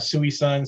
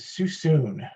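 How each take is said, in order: First: The name is said following its spelling. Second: The name sounds like 'sue soon'. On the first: The speaker calls it wrong. "it just it gets butchered every which way" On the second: The speaker calls it right. "It is Susoon"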